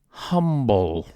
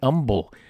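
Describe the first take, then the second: First: The H at the start is pronounced. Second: The H at the start is silent.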